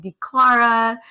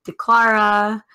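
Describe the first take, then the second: First: The name is said as D, Clara. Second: The same.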